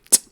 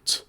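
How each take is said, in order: First: T said as an explosive ejective ts; sharp ejective ts. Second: T said as a softer ts. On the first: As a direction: burst out the ts. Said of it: "It's a sharper, more explosive sound". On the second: Teacher contrasting soft and sharp sounds. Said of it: "kind of a softer sound". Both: Shown as a demonstration.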